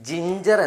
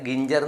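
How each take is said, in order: First: The word starts with a j sound. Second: The word starts with a hard g. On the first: The speaker calls it right. "ജിഞ്ചർ എന്നാണ് വായിക്കുക" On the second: The speaker calls it wrong. "അല്ലാണ്ട് ഗിഞ്ചർ എന്ന് വായിക്കില്ല"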